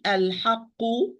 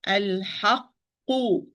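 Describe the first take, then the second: First: "al-haqqu" with the first q skimmed over; overlooked first qaf. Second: "Al-haqqu" slowly, lingering on the closed qq before u; held double qaf. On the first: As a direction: rush through the qq of "al-haqqu" without holding it. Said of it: "you overlook this qaf". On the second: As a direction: give the qq in "Al-haqqu" its full time. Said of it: "but still have time". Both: Shown as a demonstration.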